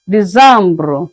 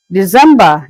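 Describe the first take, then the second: First: December said dee-zam-bro the French way; French pronunciation. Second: Said in the usual way. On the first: Shown as a demonstration. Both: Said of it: "pronounced as December".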